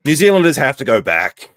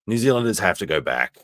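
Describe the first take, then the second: First: Mock shout. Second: Said in the usual way.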